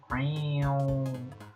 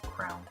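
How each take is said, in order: First: It is two syllables, cray and on. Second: It is one syllable, rhyming with crown.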